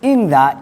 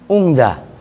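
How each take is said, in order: First: The first vowel is i. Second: The first vowel is u. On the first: This is the most eloquent reading. "Ingza ini yang afsah" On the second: This is an acceptable reading. "Boleh dibaca dhammah menjadi ung"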